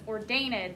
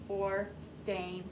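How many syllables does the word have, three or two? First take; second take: three; two. First: The ending is said as a separate syllable. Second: The ending is only a final d sound. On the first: The speaker calls it wrong. "doesn't sound right" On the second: The speaker calls it right. "if we take out the E sound"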